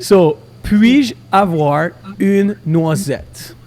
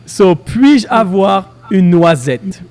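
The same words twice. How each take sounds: First: Very slow, syllable by syllable; over enunciating. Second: Over enunciating. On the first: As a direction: stretch out every sound for the learner. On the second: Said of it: "So the first one is". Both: Shown as a demonstration.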